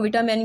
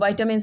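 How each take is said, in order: First: The word has a non-British, American-style pronunciation. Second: The word has a British English pronunciation.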